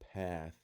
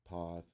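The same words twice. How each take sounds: First: The A is a short, flat vowel. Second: The A is a broad, open vowel. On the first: "you can see how I'm kind of pronouncing a small A sound" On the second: "it is kind of a broad sound in comparison to the short A"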